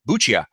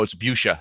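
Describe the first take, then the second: First: The name is said with an Italian pronunciation. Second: The name is said like the word fuchsia. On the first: The speaker calls it wrong. "My natural inclination is to pronounce it like an Italian" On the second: The speaker calls it right. "Think of, think of the color fuchsia"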